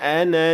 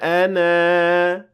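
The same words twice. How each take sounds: First: The final vowel of 'ana' is short. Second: The final vowel of 'ana' is lengthened. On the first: The reader continues to the next word. "Here I dropped the alif because I kept on reading" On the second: The reader stops at this word. "But if I stopped at it"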